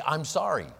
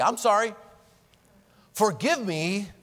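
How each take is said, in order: First: Said in the usual way. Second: Earnest apology asking forgiveness; mean it and ask; heartfelt plea, a step further; sincere sorry and forgive me. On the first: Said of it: "'cause that's easy". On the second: Shown as a demonstration. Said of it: "Whoa. That goes one step further".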